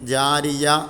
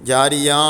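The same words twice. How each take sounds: First: It is clipped on the letter before h. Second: It ends on a drawn-out long vowel. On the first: "ആ യായിലും നിർത്തരുത്" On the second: "നീട്ടിക്കാണ്ട് അലിഫിലും നിർത്തരുത്"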